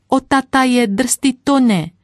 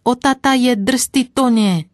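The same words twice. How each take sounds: First: Put-on higher, louder shriek of a little girl; louder screeching child. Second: Put-on high, loud squealing little girl; screeching child. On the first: Little girl shrieking again at the horses after her cake. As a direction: squeal even harder, like a five-year-old. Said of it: "ona ječela ještě víc". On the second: Little girl shrieking at the horses from the cart. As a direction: shriek it like a scared five-year-old. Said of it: "už začala ječet".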